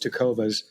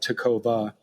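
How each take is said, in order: First: The name ends with an s sound. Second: The name ends without an s sound. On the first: The speaker calls it right. "but it's Tecovas" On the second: The speaker calls it wrong. "a lot of people may forget the S and call it Tecova"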